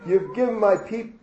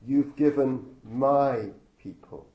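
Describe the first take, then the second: First: Higher, louder hammed-up sob, breaking off mid-word; mock sobbing wife. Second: "my" pointed and drawn out, slow, with a falling tune; stress on my. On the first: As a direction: cry the complaint and cut it short. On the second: Shown as a demonstration. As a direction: lean hard on "my" to show whose people they are. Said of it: "Did you notice how she described the people?".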